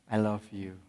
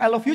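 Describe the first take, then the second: First: Soft, low and tender; mean every word of it; gentle heartfelt I love you; from the heart. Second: Quick, careless and rising; a casual throwaway I love you; offhand. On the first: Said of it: "ngomongnya dengan hati". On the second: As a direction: toss it off in passing. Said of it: "Kalau ngomongnya sambil lalu". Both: Shown as a demonstration.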